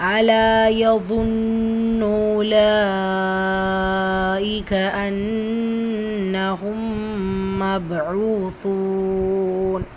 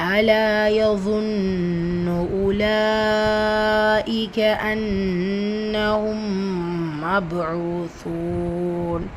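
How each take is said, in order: The two takes are said the same way.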